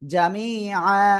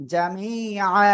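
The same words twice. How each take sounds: The two takes are said the same way.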